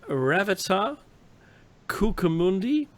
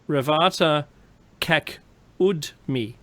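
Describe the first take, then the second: First: The second name is said with four syllables. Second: The second name is said with three syllables. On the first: The speaker calls it wrong. "I know I didn't say it right" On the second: The speaker calls it right. "And I'll say it right"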